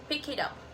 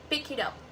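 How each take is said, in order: First: The final consonants link into the next words. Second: The final consonants link into the next words.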